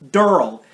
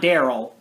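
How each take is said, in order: First: The name is said with a southern-sounding pronunciation. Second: The name is said with a plain pronunciation. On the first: The speaker calls it right. "I feel like you gotta do with like a hard southern accent" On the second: The speaker calls it wrong. "not Daryl"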